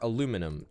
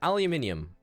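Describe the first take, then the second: First: It is said the American way. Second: It is said the British way. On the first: The speaker calls it wrong. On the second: The speaker calls it right.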